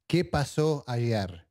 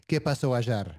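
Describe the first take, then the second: First: It is said without an Argentine accent. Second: It is said with an Argentine accent.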